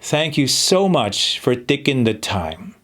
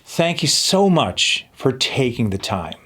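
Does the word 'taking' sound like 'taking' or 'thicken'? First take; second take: thicken; taking. First: The vowel in 'taking' is changed, like 'thicken'. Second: The vowel in 'taking' is said clearly as 'ay'. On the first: The speaker calls it wrong. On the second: The speaker calls it right.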